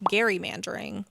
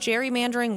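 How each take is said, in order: First: The word begins with a hard G sound. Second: The word begins with a soft G sound.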